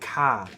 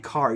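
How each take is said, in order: First: It is said in a Boston accent. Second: It is said in a general American accent. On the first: "if you're from Boston, ... you say car" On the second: "you don't say car"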